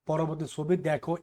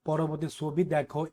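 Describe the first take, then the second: The two takes are said the same way.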